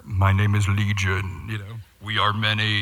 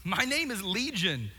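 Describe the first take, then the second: First: Demonic growl. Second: Said in the usual way. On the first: Retold or imitated. Preacher voicing the demon Legion, deep booming growl. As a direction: boom it out like a possessed man. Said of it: "I think he probably said". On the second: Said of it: "here's how the guy responds".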